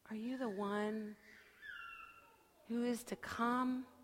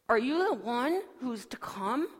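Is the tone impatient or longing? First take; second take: longing; impatient. First: The question sounds soft, hopeful and longing. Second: The question sounds impatient and exasperated. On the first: The asker deeply longs to know. The speaker calls it right. "I want to hear it, like this" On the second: The asker is fed up with waiting. The speaker calls it wrong. "I don't hear John asking it like this"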